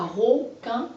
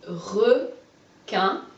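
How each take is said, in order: First: "requin" mispronounced as ro-quin; "requin" sounded like roquin, as the error to avoid; wrong first vowel. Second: "Requin" with a clear schwa, re-quin; "Requin" split slowly, re held with its e sound; insisting on re. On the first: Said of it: "re, pas requin". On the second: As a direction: stretch re, pause, then quin in "Requin". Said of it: "J'insiste sur le re". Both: Shown as a demonstration.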